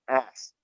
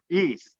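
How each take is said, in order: First: The vowel is a short 'e' sound. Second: The vowel is a long 'ee' sound. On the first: The speaker calls it wrong. "not Est" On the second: The speaker calls it right. "Remember, East"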